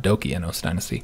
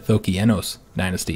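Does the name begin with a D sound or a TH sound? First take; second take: D sound; TH sound. First: The name begins with a D sound. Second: The name begins with a TH sound. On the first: The speaker calls it wrong. "not the Dokienos dynasty" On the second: The speaker calls it right. "the D here should make the T H sound"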